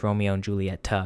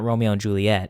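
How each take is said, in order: First: The last name ends with an 'ah' vowel. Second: The last name ends on a 't' sound. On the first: The speaker calls it right. "It's Romeo and Julieta because there's an A at the end" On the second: The speaker calls it wrong. "it's not Romeo and Juliet"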